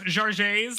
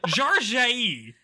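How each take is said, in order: First: The name ends with an audible s sound. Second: The name ends without any s sound. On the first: The speaker calls it wrong. "her name is not pronounced Jarjays like I was saying the whole time" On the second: The speaker calls it right. "It's Jarjay"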